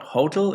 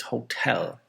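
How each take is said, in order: First: HO-tel, the learner's stress; stress on first syllable. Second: Ho-TEL, drawn out slowly on TEL; stress on second syllable. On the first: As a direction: say hotel with the weight on HO. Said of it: "So it's not hotel". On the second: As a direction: say hotel with the weight on TEL. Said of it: "put it on the second one". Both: Shown as a demonstration.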